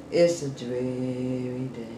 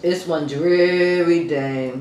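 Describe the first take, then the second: First: Lower, softer and slow, like the gray weather; mopey rainy-day mumble; dreary drawn-out voice. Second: Said in the usual way. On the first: Shown as a demonstration. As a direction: let it sag, droopy and tired. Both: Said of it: "you wanna just talk like this".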